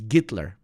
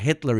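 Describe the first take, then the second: First: The name begins with a G sound. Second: The name begins with an H sound. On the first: "Instead of H, they say G" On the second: "it's not Hitler"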